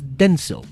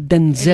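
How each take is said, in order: First: The stress is on the first syllable. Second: The stress is on the second syllable. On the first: The speaker calls it right. "mi nombre es Denzel ... El acento en la primera" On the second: The speaker calls it wrong. "no Denzel"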